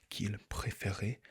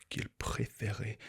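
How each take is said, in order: Both takes have the same delivery.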